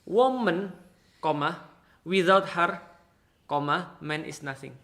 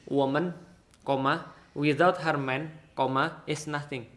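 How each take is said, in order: First: The pause comes right before the word 'man'. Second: The pause comes right after the word 'man'. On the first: Without a woman, a man is nothing. "Tapi bisa nggak saya baca" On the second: A woman is nothing without her man. "Kalau Dena bacanya gini"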